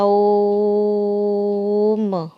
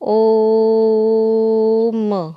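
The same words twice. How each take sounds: First: The vowel is drawn out for a long time. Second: The vowel is held for a shorter time.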